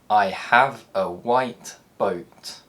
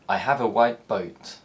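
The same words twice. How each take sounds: First: The word 'white' ends with a t sound. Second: The word 'white' ends with a p sound.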